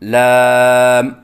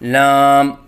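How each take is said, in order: First: The voice sounds clear, not through the nose. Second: The voice is pushed through the nose. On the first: The speaker calls it right. "सही अदायगी है" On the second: The speaker calls it wrong. "आवाज़ नाक में लेके जाना"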